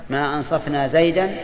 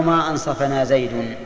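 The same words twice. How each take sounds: First: ما أنصفنا زيدا as "ansaf-na Zaydan", rising at the end; accusative Zayd. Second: ما أنصفنا زيد as "ansafa-na Zaydun"; nominative Zayd. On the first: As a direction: offer ما أنصفنا زيدا as a choice, "-an" on the last word. (ما أنصفنا زيدا بسكون الفاء ونصب زيد) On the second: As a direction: offer the other choice, ما أنصفنا زيد with "-un" on the last word. (ما أنصفنا زيد بفتح الفاء ورفع زيد) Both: Shown as a demonstration. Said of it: "أين تقول؟".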